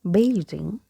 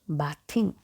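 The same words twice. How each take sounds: First: The th is voiced, as in 'this'. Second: The th is voiceless, as in 'bath'. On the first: The speaker calls it right. "letter T H having the sound like we have in the, like we have in this" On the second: The speaker calls it wrong. "not bathing"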